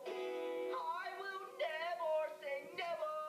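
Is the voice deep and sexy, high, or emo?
emo. It is said in a moody emo style.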